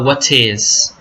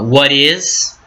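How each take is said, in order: First: It is said with a British accent. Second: It is said with an American accent.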